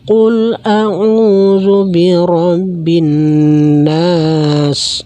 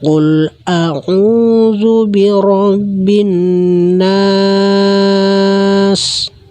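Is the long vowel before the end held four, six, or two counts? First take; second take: two; four. First: The long vowel is held for two counts. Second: The long vowel is held for four counts. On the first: "Kalau dua" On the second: "empat harakat"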